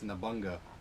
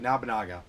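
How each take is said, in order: First: The name is said with three syllables. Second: The name is said with four syllables. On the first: The speaker calls it wrong. "I keep saying" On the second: The speaker calls it right. "it's actually Nabunaga"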